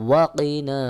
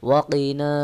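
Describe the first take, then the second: Both takes have the same delivery.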